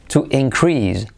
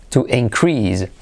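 Both takes have the same delivery.

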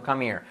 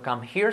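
First: The h is dropped, words run together. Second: The h is pronounced, words kept apart. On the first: The speaker calls it right. "sino come here" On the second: The speaker calls it wrong. "No come here"

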